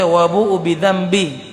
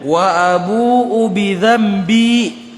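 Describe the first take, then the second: First: The vowel in bi is cut short. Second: The vowel in bi is drawn out long. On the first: The speaker calls it wrong. "Jangan dibaca ... itu salah" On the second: The speaker calls it right. "itu panjang karena uh, mat tabi'i"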